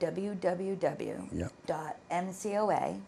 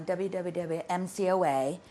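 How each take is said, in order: First: It is said slowly. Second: It is said fast.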